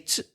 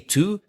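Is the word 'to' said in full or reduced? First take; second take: reduced; full. First: The word is said with a weak vowel. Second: The word is said with a full vowel. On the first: "say to" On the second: "don't say to"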